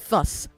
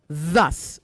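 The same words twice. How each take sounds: First: It begins without the soft 'th' sound. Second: It begins with a soft 'th' sound. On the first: The speaker calls it wrong. "not thus" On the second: The speaker calls it right. "Th, th, thus"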